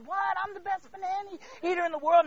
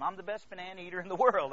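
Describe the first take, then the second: First: High, loud, comically indignant protest; mock panicked disbelief. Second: Said in the usual way. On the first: Blindfolded contestant told he is losing, mock panic. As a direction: squawk it in hammed-up alarm.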